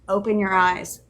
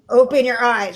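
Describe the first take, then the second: First: It is said at a fairly quiet, normal volume. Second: It is screamed at full loud volume.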